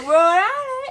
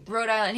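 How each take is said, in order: First: Hammed-up high shout of Rhode Island; high loud mock announcement. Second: Said in the usual way. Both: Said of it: "He's like".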